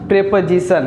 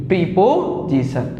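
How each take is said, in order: First: "प्रीपोजिशन" said as "prepozishan", short e in the first syllable; correct pronunciation. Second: "प्रीपोजिशन" said as "pripozisha", a long i and a clear o, slowly; the common mistake, "प्रीपोजिशन" with "pri" and "po"; wrong pronunciation. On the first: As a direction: say "प्रीपोजिशन" the right way, "pre-po-zi-shan" with a short e. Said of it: "इसकी सही pronunciation". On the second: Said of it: "ना कि". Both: Shown as a demonstration.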